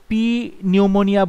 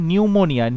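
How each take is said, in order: First: পি said as a separate letter before নিউমোনিয়া; P sounded as memory aid. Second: নিউমোনিয়া starting straight on the N; silent P. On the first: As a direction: say "pee", pause, then নিউমোনিয়া. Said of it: "বলতে পারো মনে রাখার জন্য". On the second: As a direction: say নিউমোনিয়া as "new-monia", no P sound. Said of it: "পির উচ্চারণ হয় না". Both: Shown as a demonstration.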